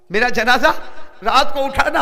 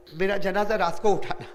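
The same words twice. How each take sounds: First: Louder and higher, rising cry; dying wife's request, cried out by the preacher; fervent loud repeat. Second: Said in the usual way. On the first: Acted.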